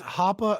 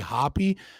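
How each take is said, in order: First: The name ends with an 'ah' vowel. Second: The name ends with an 'ee' vowel. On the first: The speaker calls it right. "It's it's Hoppa" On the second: The speaker calls it wrong. "he'll say Hoppy"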